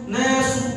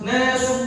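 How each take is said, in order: No difference in how they are said.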